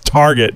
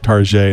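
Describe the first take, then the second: First: The name is given its plain pronunciation. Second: The name is given a fancy pronunciation. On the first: The speaker calls it right. "It's Target, damn it" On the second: The speaker calls it wrong. "you get fancy pronunciations these days"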